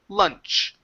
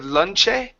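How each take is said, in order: First: The word ends cleanly on the CH sound. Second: An extra vowel sound follows the final CH. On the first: The speaker calls it right. "it's just lunch. End on that C H" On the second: The speaker calls it wrong. "there's not an E sound right after here"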